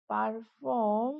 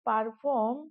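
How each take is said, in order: First: "perform" drawn out slowly; slow dictation. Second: Said in the usual way. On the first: Shown as a demonstration. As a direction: stretch both syllables of "perform" for learners. Teacher repeats the word slowly. ("Perform" ধীরে টেনে বলা)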